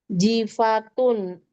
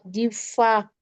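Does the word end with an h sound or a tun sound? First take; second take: tun; h. First: The word ends with a t and n sound. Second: The word ends with a soft h sound.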